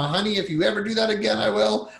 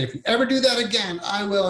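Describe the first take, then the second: First: High, fast scolding threat; angry venting at spouse, higher and quicker; mock threat to spouse. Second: Put-on higher, fast threatening yell at a child; mock scream at kid. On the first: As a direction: snap a warning at your honey, pitched up. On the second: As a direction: scream the threat at your kid, pitched up high. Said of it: "and you screamed".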